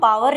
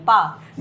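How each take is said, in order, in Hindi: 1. 'w' की आवाज़ पूरी तरह बोली जाती है। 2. 'w' की आवाज़ छोड़ दी जाती है या बहुत हल्की सुनाई देती है। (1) "अब इसको हम पावर नहीं बोलते हैं" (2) "डब्ल्यू थोड़ा सा ही, हल्का सा ही बोला जाता है, या साइलेंट ही लगा लो"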